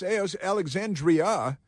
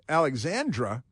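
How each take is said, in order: First: The name ends in '-dria' with an 'ee' sound. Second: The name ends in '-dra' without an 'ee' sound. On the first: The speaker calls it right. "it's it's Alexandria" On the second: The speaker calls it wrong. "not Alexandra"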